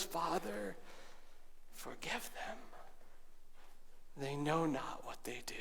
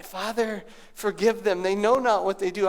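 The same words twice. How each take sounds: First: Softer, falling to a whisper; hushed cry. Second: Said in the usual way. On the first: A narrator's reading. Preacher ending the repeated prayer in a whisper. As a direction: let the prayer fade to a breath. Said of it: "he cries out with these words". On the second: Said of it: "words that we're supposed to dwell on".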